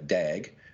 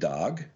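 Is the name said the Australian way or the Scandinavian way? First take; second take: Australian; Scandinavian. First: The name has an Australian-style vowel. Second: The name has a Scandinavian-style vowel. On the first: It is slang for an idiot. The speaker calls it wrong. "in Australia, if I was to say Dag, that's an idiot" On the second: It is the character's name. The speaker calls it right. "like the Swedish or the Scandinavian version"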